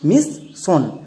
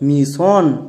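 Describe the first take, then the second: First: The middle consonant is a plain s sound. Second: The middle consonant is an sh sound. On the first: The speaker calls it wrong. "আমরা কি উচ্চারণ করতাম মিস সন, আর ওখানেই ভুল হতো" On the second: The speaker calls it right. "এর উচ্চারণ হবে মিশন"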